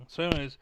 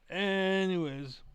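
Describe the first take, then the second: First: Said in the usual way. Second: Anyways stretched out slow and pitched higher; drawn-out sing-song anyways. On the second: Real, not acted. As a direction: let anyways float up high and linger. Wrapping up the rant.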